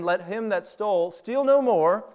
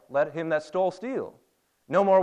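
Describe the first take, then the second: First: There is no pause right after 'steal'. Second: There is a pause right after 'steal'. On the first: The thief should stop stealing. The speaker calls it right. "No, he's saying" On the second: The thief should keep stealing and stop working. The speaker calls it wrong. "if you don't pause at the right point, you might give the wrong emphasis, like"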